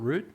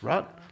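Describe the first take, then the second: First: The vowel is a long oo sound. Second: The vowel is a short uh sound. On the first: The speaker calls it wrong. "it's not root" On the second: The speaker calls it right. "it's rut"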